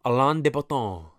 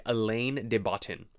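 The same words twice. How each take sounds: First: Alain de Botton with a French accent; crisp French-style name; French pronunciation. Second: Alain de Botton read as spelled, in plain English; English vowels, hard final N on Botton; anglicized spelling pronunciation. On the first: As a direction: say the name the French way, nasal final vowel. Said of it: "his name sounds so French to me". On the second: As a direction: say Alain de Botton like an American reading it. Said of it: "it's spelled like". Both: Shown as a demonstration.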